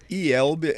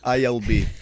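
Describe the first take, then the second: First: The letters are named with Portuguese letter sounds. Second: The letters are named with English letter sounds. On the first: This is how Brazilians say the abbreviation. "we say" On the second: This is how English speakers say the abbreviation. "you say"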